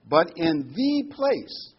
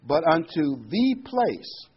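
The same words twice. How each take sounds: First: "But in the place" slow and heavy, louder, each word weighted; stress on "the place". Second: "But unto the place" slowed and louder, "place" weighted; stress on "the place". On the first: Preacher to congregation, slow emphatic stress on "the place". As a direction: lean hard on "the place", drawn out. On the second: Reading scripture to the flock, slow emphatic stress. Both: Shown as a demonstration. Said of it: "I'm emphasizing the words to make the point".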